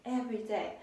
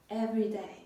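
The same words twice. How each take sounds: The two takes are said the same way.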